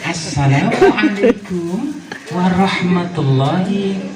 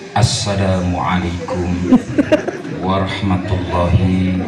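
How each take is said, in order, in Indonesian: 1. Diucapkan dengan riang, kekanak-kanakan, dan main-main. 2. Diucapkan dengan kaku, formal, seperti orang dewasa. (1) "semakin gayanya itu semakin yang bocahi lah" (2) "jangan seperti ngadepin orang tua"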